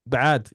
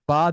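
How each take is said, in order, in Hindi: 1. इसकी शुरुआत गले से निकली ध्वनि से होती है। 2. इसकी शुरुआत एक सादे स्वर से होती है। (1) "ऐन के साथ हमने बोलना है" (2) "बाद नहीं"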